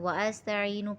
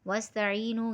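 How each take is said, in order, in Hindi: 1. s से पहले एक अलग स्वर आता है। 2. wa की आवाज़ सीधे s में चली जाती है। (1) "वअस्तईनू पढ़ देते हैं जबकि ये गलत है" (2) "इसको वाव से सीन को मिला के पढ़ेंगे"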